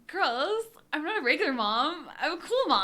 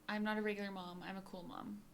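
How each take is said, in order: First: It imitates the character's inflection. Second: It is said in the speaker's plain voice.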